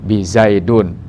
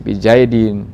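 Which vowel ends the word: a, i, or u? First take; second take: u; i. First: The word ends with a u vowel sound. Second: The word ends with an i vowel sound. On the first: The speaker calls it wrong. "Apalagi bizaidun, salah" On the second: The speaker calls it right. "Jadi dibaca ini bizaidin"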